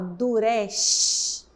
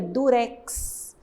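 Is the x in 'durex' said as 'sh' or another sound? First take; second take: sh; other. First: The x is said with an 'sh' sound. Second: The x is said with a different sound. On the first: The speaker calls it wrong. "A gente fala durex" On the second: The speaker calls it right. "Não, a gente pronuncia durex. Então ele tem um outro som"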